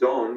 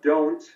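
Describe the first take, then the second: First: The word ends without a final t sound. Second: The word ends with a final t sound. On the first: The final consonant cluster is reduced, as a child does. "so we ended it with don, which is fine" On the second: This is the standard adult pronunciation. "So we have don't"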